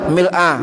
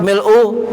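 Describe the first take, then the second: First: The word ends with an a vowel. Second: The word ends with a u vowel. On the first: "boleh dibaca fathah" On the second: "boleh dibaca mil'u"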